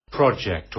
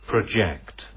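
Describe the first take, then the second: First: "Project" stressed on the first syllable, PROJ-ect; "Project" said PRAH-jekt; noun stress. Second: "project" stressed on the second syllable, pro-JECT; "project" said pruh-JEKT; verb stress. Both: Shown as a demonstration.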